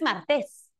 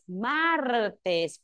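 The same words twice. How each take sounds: First: The stress is on the last syllable. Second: The stress is on the first syllable. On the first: The speaker calls it wrong. "no es martes" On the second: The speaker calls it right. "es martes"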